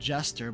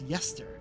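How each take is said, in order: First: The name begins with a J sound. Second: The name begins with a Y sound. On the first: The speaker calls it wrong. "I would have said Jester" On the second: The speaker calls it right. "but it's pronounced Yester"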